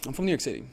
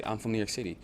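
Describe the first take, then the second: First: "I'm from New York City." said after a long silent pause; extra pause. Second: Said in the usual way. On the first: Shown as a demonstration. Playing it cool with a girl by pausing before answering. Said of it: "just giving a little bit extra pauses". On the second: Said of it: "And rather than saying".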